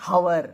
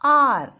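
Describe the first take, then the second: First: The word starts with an audible h sound. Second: The word starts with a vowel, no h sound. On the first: The speaker calls it wrong. "We don't say hour" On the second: The speaker calls it right. "H is silent"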